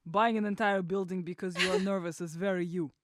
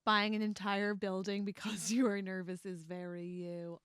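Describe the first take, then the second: First: Russian-accented quote in a borrowed voice. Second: Lightly Russian-accented read of the line. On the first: Reading Ilya's quote on request, in a Russian accent. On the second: Quoting Ilya to her co-host, hint of Russian accent. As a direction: try a faint Russian accent on Ilya's line. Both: Shown as a demonstration. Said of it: "better when you do it in your accent".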